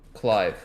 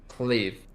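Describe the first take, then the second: First: The vowel sounds like 'eye', as in Clive. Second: The vowel sounds like 'ee', as in Cleve. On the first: The speaker calls it right. "he's called Clive" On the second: The speaker calls it wrong. "I've heard people pronounce him Cleve"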